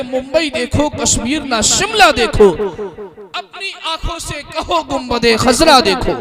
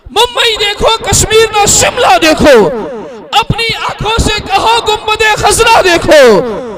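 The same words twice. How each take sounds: First: Said in the usual way. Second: High, loud and ringing; declaimed. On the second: Shown as a demonstration. Announcer repeating the couplet loudly to the crowd. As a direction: throw the verse out to the hall. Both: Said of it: "repeated louder".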